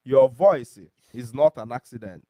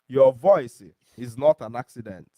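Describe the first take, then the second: First: It is spoken in an Igbo accent. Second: The same.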